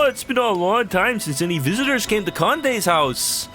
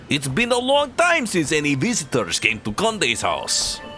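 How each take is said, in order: First: It is spoken in a Canadian-sounding accent. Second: It is spoken in a Russian-sounding accent. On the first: "I can't give him a Canadian accent" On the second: "maybe Conde can be Russian"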